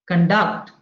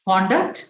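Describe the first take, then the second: First: The stress is on the second syllable. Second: The stress is on the first syllable. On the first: It is a verb. "If it is a verb, ... stress falls on the second syllable" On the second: It is a noun. "if it is a noun, it is on the in the beginning"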